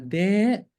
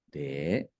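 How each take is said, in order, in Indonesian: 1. Dipanggil dengan suara keras sambil berteriak. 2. Dipanggil dengan suara rendah dan pelan. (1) "kenapa sih mesti teriak-teriak manggilnya?" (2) "pakai nada rendah"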